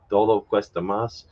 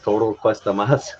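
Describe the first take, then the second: First: The first word has a soft, breathy d sound. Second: The first word has a tapped r-like sound. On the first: The speaker calls it right. "The soft D, the sounds like the English T H" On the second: The speaker calls it wrong. "it sounded kind of like he was saying toro"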